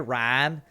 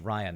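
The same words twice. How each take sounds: First: The name is said in a Texan accent. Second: The name is said in a Californian accent. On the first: This is how people in Texas said the name. The speaker calls it wrong. "when I first moved to Texas and everybody called me Ryan, hey Ryan" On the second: This is how the speaker says his own name. The speaker calls it right. "My name is Ryan"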